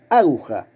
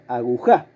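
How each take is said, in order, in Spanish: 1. La sílaba tónica es la primera. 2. La sílaba tónica es la última. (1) "si la sílaba tónica fuera la primera" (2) "si la sílaba tónica fuera la tercera, la última"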